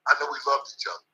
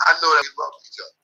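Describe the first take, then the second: First: Much softer, fast, to himself; real quiet afterthought; soft repeat. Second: Fast, voice cracking with feeling; real welling emotion; emotional declaration. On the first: Remembering his late trainer, repeating it much softer. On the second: Remembering his late trainer, voice cracking. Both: Real, not acted.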